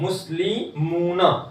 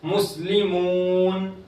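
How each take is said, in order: First: The word ends with a short a vowel. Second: The word ends on a bare n sound. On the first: The reading continues without stopping. "नून के ऊपर जबर है" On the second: The reader stops at this word. "हम यहां रुकेंगे तो क्या पढ़ेंगे?"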